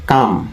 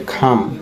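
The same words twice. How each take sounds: First: "কাম" with unaspirated k; old "কাম" pronunciation. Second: "খাম" with a strongly aspirated k; correct "খাম" pronunciation. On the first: Teacher showing what we used to know, "কাম" with plain k. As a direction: say "কাম" with no puff after k. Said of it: "আমরা এটাকে জানতাম কাম". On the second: Teacher correcting viewers, "খাম" with breathy-released k. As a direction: puff out the k in "খাম", kham. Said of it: "সঠিক উচ্চারণ হবে খাম". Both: Shown as a demonstration.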